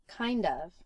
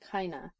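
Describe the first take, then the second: First: Both words are pronounced fully and separately. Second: The words run together into one reduced form.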